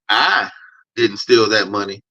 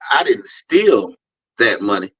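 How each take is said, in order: First: The word "I" carries the stress. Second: The word "steal" carries the stress. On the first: Someone else stole the money. "that kind of implies I know who did steal that money" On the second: Taking the money was not stealing. "that means I think I'm entitled to the money"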